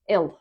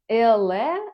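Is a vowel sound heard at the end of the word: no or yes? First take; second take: no; yes. First: The word ends on the l sound. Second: A vowel sound is pronounced at the end. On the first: The speaker calls it right. "е в кінці не вимовляється. Просто ел" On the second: The speaker calls it wrong. "тобто так не вимовляється"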